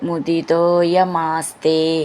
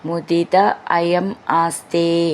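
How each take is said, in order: First: The words run together as one unit. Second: The words are said separately, without joining.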